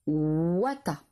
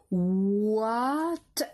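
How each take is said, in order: First: Said in the usual way. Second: "Ouat-a" stretched into oua, a crisp t, then a; sounded out. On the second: Shown as a demonstration. Teacher dictating the third syllable, drawn out sound by sound. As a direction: glide slowly through "Ouat-a", splitting off the t. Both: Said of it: "Troisième syllabe".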